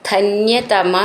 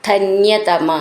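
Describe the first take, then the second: No difference in how they are said.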